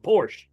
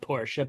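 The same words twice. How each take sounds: First: The final E is silent, one syllable. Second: The final E is pronounced as a syllable. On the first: This is how it is said in America. "here in America, the E silent" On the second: This is how it is said in Germany. "maybe in Germany where it's built, it's called Porsche"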